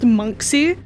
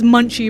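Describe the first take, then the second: First: The middle of the name has a ks sound. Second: The middle of the name has a ch sound. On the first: The speaker calls it right. "who else fucking knew that it was pronounced Monksy?" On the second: The speaker calls it wrong. "I've been pronouncing it as Munchie this whole time"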